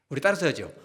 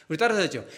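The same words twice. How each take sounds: No difference in how they are said.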